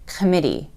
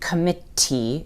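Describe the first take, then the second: First: The middle consonant is a soft D sound. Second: The middle consonant is a clear T sound. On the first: The speaker calls it right. "it's committee" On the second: The speaker calls it wrong. "isn't committee"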